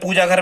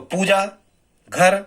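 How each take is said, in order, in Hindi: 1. दोनों शब्द बिना किसी विराम के एक साथ बोले जाते हैं। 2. पहले शब्द के बाद एक छोटा सा विराम है। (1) "हम रुके नहीं" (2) "हम थोड़े से रुके हैं"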